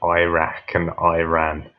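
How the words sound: The names are said the American way. The speaker calls it wrong. "the way that Americans pronounce Iraq and Iran"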